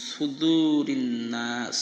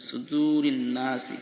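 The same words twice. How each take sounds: First: সুদুরিন নাস with the final vowel dropped, ending on নাস; pausal form. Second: সুদুরিন নাসি with the final vowel নাসি pronounced; continuous reading. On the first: Teacher showing the correct stop, saying নাস. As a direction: stop on নাস, slowly drawn. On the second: Teacher showing the form without the stop, saying নাসি. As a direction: read it joined, ending নাসি. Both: Shown as a demonstration. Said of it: "কিন্তু আমরা পড়বো".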